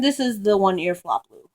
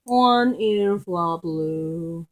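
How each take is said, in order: First: Said in the usual way. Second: Very slow, lower-pitched nickname; long, lingering pet-name coo; drawn-out repeat. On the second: Real, not acted. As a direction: stretch each word right out.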